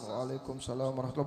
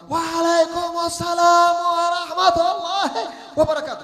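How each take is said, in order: First: The reply is said lazily and weakly. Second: The reply is said energetically and loudly.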